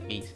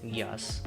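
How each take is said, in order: First: It is said as one syllable, like 'geese'. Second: It is said as two syllables, 'gee-ass'. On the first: "I pronounce it Geese" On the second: "you could pronounce it Geass?"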